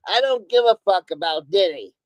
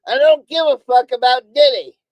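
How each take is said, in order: First: Said in the usual way. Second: Loud, punched-out, fed-up declaration; real irritated outburst; angry emphasis. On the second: Real, not acted. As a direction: hammer each word out louder, really fed up.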